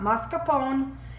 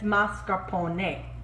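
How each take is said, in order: First: The final E is not pronounced like 'ay'. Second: The final E is pronounced like 'ay'. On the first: The speaker calls it wrong. "It's not mascarpone" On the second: The speaker calls it right. "The E is pronounced A in Italian"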